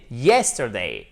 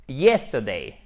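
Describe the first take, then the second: First: "Yesterday" with YES punched, rest falling; stress first syllable. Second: "Yesterday" stressed on YES, falling after; stress first syllable. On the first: Teacher repeats "Yesterday", stress on first syllable. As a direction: land the accent on YES in "Yesterday". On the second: Teacher models "Yesterday", stress on YES. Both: Shown as a demonstration. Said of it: "On met bien l'accent tonique sur la première syllabe".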